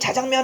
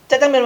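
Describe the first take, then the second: First: The first consonant is plain, not tense. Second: The first consonant is tense. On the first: The speaker calls it wrong. "자장면이라고 발음하는 건 케이비에스 뉴스 데스크 앵커밖에 없는데" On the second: The speaker calls it right. "짜장면 발음할 때"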